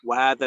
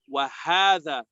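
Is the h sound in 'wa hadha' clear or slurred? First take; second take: slurred; clear. First: The h sound is slurred and unclear. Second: The h sound is clearly pronounced. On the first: The speaker calls it wrong. "So many times when we recite, we say" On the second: The speaker calls it right. "The the ha should be made clear"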